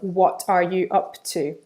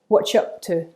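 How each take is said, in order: First: Each word is said fully and separately. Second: The words are run together quickly and reduced.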